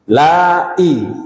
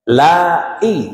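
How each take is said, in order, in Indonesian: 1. Hentian glotis memisahkan la dari i. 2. Hentian glotis memisahkan la dari i.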